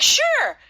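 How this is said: It sounds sincere, meaning of course.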